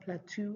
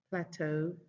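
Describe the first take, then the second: First: It is said the usual Nigerian way. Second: It is said the standard way. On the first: The speaker calls it wrong. "not plateau like we normally say here in Nigeria" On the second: The speaker calls it right. "it is plateau"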